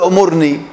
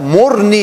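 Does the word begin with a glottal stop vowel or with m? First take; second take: glottal stop; m. First: The word begins with a glottal stop and vowel. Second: The word begins directly with the m sound. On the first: The speaker calls it wrong. "ما تقول أمرني" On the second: The speaker calls it right. "لا مرني يا خالد، تحذف إيش الهمزة"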